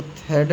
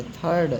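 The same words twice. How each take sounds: First: "थर्ड" misread with a short, tight uh or e; wrong short vowel. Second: "थर्ड" said as "thaa-rd"; open aa vowel. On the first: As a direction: say "थर्ड" wrongly, without the open aa. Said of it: "इसको थर्ड नहीं पढ़ेंगे". ("थर्ड" को बिना आ के, छोटे स्वर से गलत बोलकर) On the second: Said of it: "था, आ". ("थर्ड" में आ की आवाज़, "थार्ड" जैसा) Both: Shown as a demonstration.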